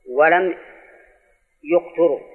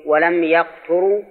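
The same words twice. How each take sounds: First: يقتروا read yuqturū, opening yu; pause, then say يقتروا with "yu" first; damma on first letter. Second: يقتروا read yaqturū, opening ya; fatha on first letter. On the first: Teacher shows the author's apparent reading, يقتروا as yuqturū. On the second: Teacher shows students the first reading, يقتروا as yaqturū. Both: Shown as a demonstration. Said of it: "قال بفتح أوله وضمه".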